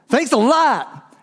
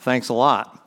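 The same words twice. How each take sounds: First: It sounds warm and sincere. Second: It sounds cold and sarcastic.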